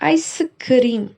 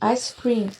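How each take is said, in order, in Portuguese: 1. É pronunciado do jeito coreano. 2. É pronunciado do jeito inglês. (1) "Em coreano, ice cream significa ice cream" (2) "a palavra sorvete em inglês é ice cream"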